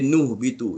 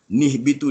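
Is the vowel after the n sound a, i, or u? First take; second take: u; i. First: The n is followed by a u vowel. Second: The n is followed by an i vowel. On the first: The speaker calls it wrong. "tak boleh baris depan" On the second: The speaker calls it right. "nun kecil ni mesti nak berbaris bawah"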